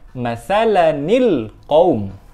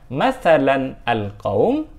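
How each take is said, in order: First: The words are joined with an added 'ni' sound. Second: The words are joined without an added 'ni' sound. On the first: The speaker calls it right. "tapi kita baca masalanil qaum" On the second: The speaker calls it wrong. "bukan masalan al-qaum"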